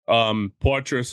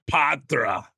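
First: The name is said in a plain accent. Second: The name is said in a Boston accent.

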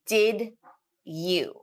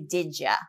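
First: Each word is said fully and separately. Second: The words are run together and reduced.

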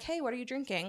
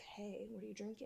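First: It is said in a casual, friendly tone. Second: It is said in a creepy, leering tone.

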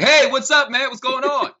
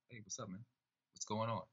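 First: It is said loudly, projected far. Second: It is said quietly, as if close by.

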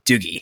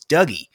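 First: The name is said the Scottish way. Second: The name is said the North American way. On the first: The speaker calls it right. "in Scotland, D-O-U-G-I-E, Doogie is very much Doogie" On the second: The speaker calls it wrong. "in North America, I found that people are like, oh, it's Dougie"

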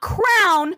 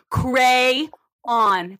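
First: It is said as one syllable, like crown. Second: It is said as two syllables, cray-on. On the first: The speaker calls it wrong. "not crown ... It is not C-R-O-W-N" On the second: The speaker calls it right. "crayon. That is how it is spelt"

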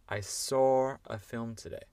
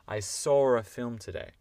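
No difference in how they are said.

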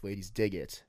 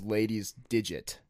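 First: The ending is split into two words. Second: The ending runs together as one word. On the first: Ladies like it. The speaker calls it right. "no, like Ladies Dig It" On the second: It refers to a digit belonging to ladies. The speaker calls it wrong. "everybody pronounced it, though, as Ladies Digit"

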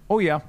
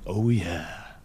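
First: It is said in a flat, unseductive way. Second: It is said in a slow, sultry, seductive way. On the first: The speaker calls it wrong. "Really didn't say it the way I wanted him to" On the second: The speaker calls it right. "Like in a kind of sexy kind of night"

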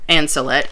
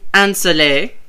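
First: The name is pronounced the English way. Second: The name is pronounced the French way.

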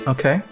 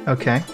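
The two takes are said the same way.

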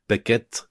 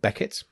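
First: The name is said with French pronunciation. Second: The name is said with English pronunciation.

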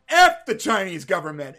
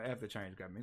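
First: It is said forcefully, with conviction. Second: It is said hesitantly, without conviction.

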